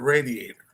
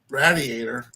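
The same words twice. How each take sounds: First: It is said with a non-northern pronunciation. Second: It is said with a northern pronunciation. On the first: "instead of" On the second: "up north, where they'll say uh, radiator"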